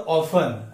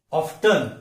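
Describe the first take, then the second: First: ऑफन without any t; t dropped in ऑफन; silent T. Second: ऑफ्टन with an audible t; t variant of often, ऑफ्टन; T sounded. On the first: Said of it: "ट sound यहाँ पे". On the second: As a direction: say ऑफ्टन as OF-tun. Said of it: "American English में". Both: Shown as a demonstration.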